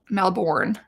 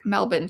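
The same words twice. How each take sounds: First: The name is said the North American way. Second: The name is said the local way. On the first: The speaker calls it wrong. "like we say in North America" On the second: The speaker calls it right. "the actual way to pronounce that is Melbourne"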